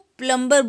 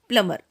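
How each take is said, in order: First: A b sound is heard after the m. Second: No b sound is heard after the m. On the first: The speaker calls it wrong. "अक्सर इसको प्लम्बर बोलते हैं, लेकिन वो गलत होता है" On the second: The speaker calls it right. "सही प्रोनाउंसिएशन होता है प्लमर"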